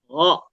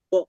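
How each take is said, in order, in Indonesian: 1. Bunyinya diawali dengan desis lembut tinggi di tenggorokan. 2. Bunyinya diawali dengan g keras yang biasa. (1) "agak ngambang-ngambang G-nya" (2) "O-nya nggak go"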